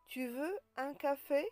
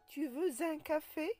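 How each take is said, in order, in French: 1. Aucun son z ne relie veux à un. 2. Un son z relie veux à un. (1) "on ne fait pas de liaison" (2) "On ne dit pas"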